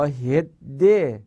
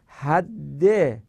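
First: هده drawn out, short "e" before the doubled d; slow, clear "hedde" for هده; hidde with e-vowel. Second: حده drawn out, open "a" before the doubled d; slow, clear "hadde" for حده; hadde with a-vowel. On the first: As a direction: say هده very slowly as "HED-de", e after the h. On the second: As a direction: say حده slowly as "HAD-de", a after the h. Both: Shown as a demonstration. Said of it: "یا هده".

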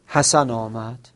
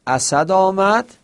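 First: «حسن» said by mistake for «اسد»; slip of the tongue. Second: Said in the usual way. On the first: Shown as a demonstration. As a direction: misspeak the name, saying «حسن» where «اسد» was meant. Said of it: "این تلفظش اشتباه بود". (اشتباه تلفظی، «حسن» به جای «اسد»)

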